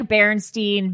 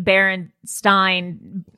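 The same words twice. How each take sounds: First: "Berenstein" ending in a long ee, "steen". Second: "Berenstein" drawn out, ending to rhyme with "line"; Berenstein with "stine". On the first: Host comparing false memories of a name, "Berenstein" said "steen". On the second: Host correcting herself on a name, slow "Berenstein" said "stine". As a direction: slowly say the end of "Berenstein" like "stine". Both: Shown as a demonstration. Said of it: "this is like Berenstein".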